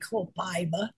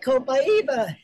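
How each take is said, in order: First: It is said flatly, without a Brazilian rhythm. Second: It is said with a bouncy Brazilian rhythm. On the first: This is not how people in Brazil say it. The speaker calls it wrong. "they don't say copaiba" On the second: This is how people in Brazil say it. The speaker calls it right. "that's the way they say it in Brazil"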